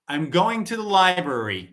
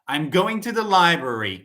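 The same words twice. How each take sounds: First: The words run together, linked into one flow. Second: The words run together, linked into one flow.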